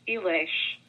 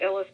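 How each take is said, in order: First: The name ends with an sh sound. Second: The name ends with an s sound. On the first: This is the original Hungarian pronunciation. "it's actually pronounced Elish. Technically, because an S in Hungarian is an SH" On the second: This is the everyday anglicized pronunciation. "But I usually pronounce it Illis"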